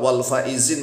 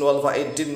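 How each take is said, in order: First: The word is said with a z sound. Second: The word is said with a d sound. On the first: The speaker calls it right. "pakai zai" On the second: The speaker calls it wrong. "Jangan dibulak-balik"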